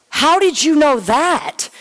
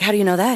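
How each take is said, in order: First: Higher and slowed right down, stunned; drawn-out astonished question; amazed disbelief. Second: Said in the usual way. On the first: Retold or imitated. Asking the salesman how he knew, higher and slower in amazement.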